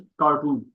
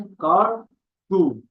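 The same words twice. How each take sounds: First: Said in the usual way. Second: कार and टू said apart, a clear pause between; syllable by syllable. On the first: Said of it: "cartoon में कितने syllable हैं". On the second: Shown as a demonstration. Teacher counting syllables for students, split into कार, टू. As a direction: break the word into कार ... टू. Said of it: "दो syllable हैं".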